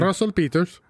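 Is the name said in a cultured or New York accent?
cultured. It is said in a refined, cultured accent. "I'm trying to say it in a cultured way"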